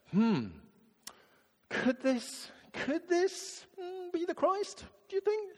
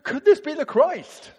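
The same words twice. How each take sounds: First: A dithering, unsure hmm; doubtful musing. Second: Much higher and louder, eager question; bursting to tell the town; excited certainty. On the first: Samaritan woman wondering aloud, doubtful high ponder. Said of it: "I don't think she's saying". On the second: Woman telling her townspeople, excited loud certainty. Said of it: "She's going". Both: Shown as a demonstration.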